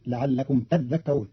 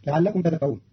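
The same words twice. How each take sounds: First: تذكرون with a doubled ذ, tadhdhakkarun, slowly; Qalun reading. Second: Said in the usual way. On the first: Shown as a demonstration. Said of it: "بتشديد الذال". (تذكرون بتشديد الذال ببطء) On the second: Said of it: "قرأ قالون كلمة تذكرون بتشديد الذال".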